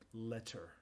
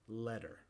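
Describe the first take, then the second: First: The middle consonant is a voiceless t. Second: The middle consonant is a voiced d-like sound. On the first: The word is being enunciated very carefully. The speaker calls it wrong. "el sonido no es sordo, no es letter" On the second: This is the normal everyday pronunciation. The speaker calls it right. "normalmente es un sonido sonoro d"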